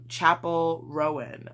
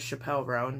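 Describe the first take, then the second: First: The first name sounds like the word chapel. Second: The first name sounds like the name Chappelle. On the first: The speaker calls it right. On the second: The speaker calls it wrong.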